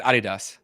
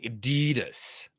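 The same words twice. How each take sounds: First: Adidas stressed on the first syllable; German pronunciation. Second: Adidas with a long DEE; American pronunciation. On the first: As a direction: say Adidas as "AH-dee-dahs". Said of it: "I said it Adidas". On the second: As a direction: drag out Adidas as "uh-DEEE-dus". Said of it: "American make it extremely long". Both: Shown as a demonstration.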